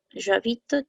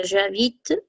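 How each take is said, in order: First: Said in the usual way. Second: "j'habite" spelled out slowly for learners; "j'habite" stretched out, zh-ah-beet; slow French model. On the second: Shown as a demonstration. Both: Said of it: "la conjugación sería".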